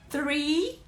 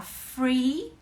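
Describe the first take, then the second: First: "three" with a TH onset, rising at the end; TH sound. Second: "free" with an F onset, rising at the end; F sound. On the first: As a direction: demonstrate "three" with TH, held up questioningly. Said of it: "seu famoso T H". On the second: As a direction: demonstrate "free" with F in place of TH. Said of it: "Você tá falando livre". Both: Shown as a demonstration.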